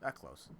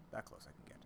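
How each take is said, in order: First: Said in the usual way. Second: Whispered aside to self; hushed whisper under the breath. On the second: Real, not acted. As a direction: breathe the words without voice.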